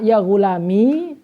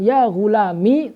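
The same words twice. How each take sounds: First: The word ends in a long i vowel. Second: The word ends in a short i vowel. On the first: "dengan adanya ya" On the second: "tanpa ya"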